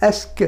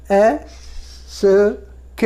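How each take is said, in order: First: এস্ক joined into one word, "esk"; teacher blending the sounds into a single এস্ক; run together. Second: এস and ক said as separate sounds with a long pause; teacher splitting এস / ক sound by sound; sounded out separately. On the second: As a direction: break it up slowly into এস, then ক. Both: Shown as a demonstration. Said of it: "একসঙ্গে উচ্চারণ করি আমরা".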